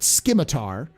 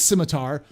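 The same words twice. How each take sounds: First: The word begins with an SK sound. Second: The word begins with a plain S sound. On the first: This is how the designers pronounced it. "they pronounced it scimitar" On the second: This is the standard pronunciation. "there's no K in scimitar. I know it's scimitar"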